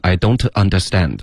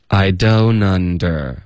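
First: "don't" with a full t, apart from "understand"; formal, unlinked "don't understand"; overly official. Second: Slow "I don't under" with don't gliding into under, t dropped; "don't under" as one smooth "doh-nunder"; linked, continuous flow. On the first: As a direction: imitate textbook "I don't understand", every word complete. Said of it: "直接说得非常官方". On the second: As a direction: keep the breath flowing through "I don't under". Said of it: "要气流一致连贯地说". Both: Shown as a demonstration.

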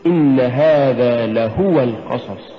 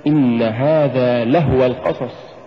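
First: Slow reading, "لهو" as la-HU-wa; correct لهو. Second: "لهو" squashed to lah-wa; mispronounced لهو. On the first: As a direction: say لهو with a full u on the ha. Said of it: "قل". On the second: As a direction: say لهو with no vowel on the ha. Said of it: "ولا تقل". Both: Shown as a demonstration.

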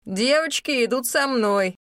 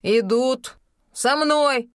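First: Brook no argument; firm command. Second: Very slow, loud, final command; tone brooking no objection. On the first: Acted. Rahel commands the crowd. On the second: A narrator's reading. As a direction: stress мной, slow and final. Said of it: "повторила Рахель тоном, нетерпящим возражений".

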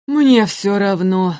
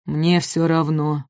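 First: Slow, indifferent drone; apathetic giant. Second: Apathetic giant. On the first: Апатозавр равнодушно, медленно. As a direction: say it like nothing matters. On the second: Апатозавр равнодушно отворачивается. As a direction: let it fall flat and weary. Apatosaurus voiced slow. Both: Acted.

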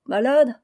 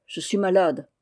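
First: Raised, incredulous question on MALADE; mocking echo. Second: Said in the usual way. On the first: A narrator's reading. Joël scoffing at the pale fisherman's excuse, mocking.

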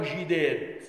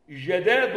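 First: جداد with an "i" after jim: jidād; kasra on jim. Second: جداد with an open "ja": jadād; fatha on jim. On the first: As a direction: say جداد slowly, starting "ji". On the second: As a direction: open the first vowel of جداد to "ja". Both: Shown as a demonstration. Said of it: "بكسر الجيم وبفتح الجيم".

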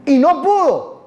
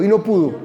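First: Slow, high, stressing pudo; slow emphatic reading. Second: Said in the usual way. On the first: Shown as a demonstration. Pastor modelling "Y no pudo" for the congregation to repeat. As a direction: lean on pudo slowly, higher. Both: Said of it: "repita conmigo".

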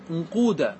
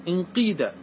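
First: انقود said "unquuda", with long uu; damma form. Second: انقيد said "inqiida", with long ii; kasra form. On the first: Teacher applying the rule to another verb, انقود as "unquuda". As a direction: give انقود u vowels: "unquuda". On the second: Teacher applying the rule to another verb, انقيد as "inqiida". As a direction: give انقيد i vowels: "inqiida". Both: Shown as a demonstration. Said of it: "كذلك انقاد".

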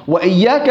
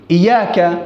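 First: "وإياك" with a held double y; "wa iyyaaka" for "وإياك"; with shadda. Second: "إياك" with a single y, "iyaka"; light single-y "إياك"; without shadda. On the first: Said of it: "بالتشديد". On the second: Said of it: "بدون شدة". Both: Shown as a demonstration.

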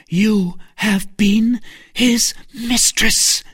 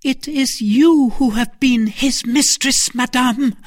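First: Slow, high, weighted accusation; pointed, high-pitched charge, word by word; accusing. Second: High, loud retort with stress on "you"; loud, high counter-accusation punching "you"; accusation turned back. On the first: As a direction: hammer out each word accusingly. Novice accuses Milady of being mistress. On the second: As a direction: throw it back, hitting "you" hard. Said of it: "cried Milady in her turn". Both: A narrator's reading.

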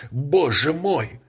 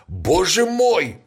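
First: High, slow repeated cry. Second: High, slow cry of alarm. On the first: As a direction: say it again, still shaken. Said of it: "повторял он". (повторный взволнованный возглас) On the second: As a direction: cry out in shock. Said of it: "вскричал он". (громкий испуганный возглас) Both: A narrator's reading.

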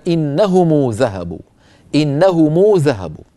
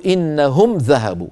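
First: Slow, long uu after the m of إنهم; meem linked with waw. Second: Slow, closed m in إنهم before ذهبوا; no vowel after the m of إنهم; silent-vowel meem. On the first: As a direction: say إنهم as "innahumuu". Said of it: "كان يضم ميم الجمع ويصلها بواو". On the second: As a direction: say إنهم as "innahum". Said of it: "سكنوا الميم وصلًا". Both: Shown as a demonstration.

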